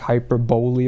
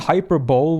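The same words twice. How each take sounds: First: The word ends in 'bowly' with a final vowel. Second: The word ends in 'bowl' with no final vowel. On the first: "I was corrected in the past that it's apparently like hyperbole" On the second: "To me, hyperbole would make so much more sense"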